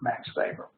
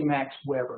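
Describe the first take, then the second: First: The surname begins with a V sound. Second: The surname begins with an English W sound. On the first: The speaker calls it right. "the W is pronounced as a V" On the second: The speaker calls it wrong. "If you say Max Weber, nobody's going to know who you're talking about"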